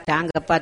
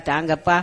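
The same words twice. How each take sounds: The two takes are said the same way.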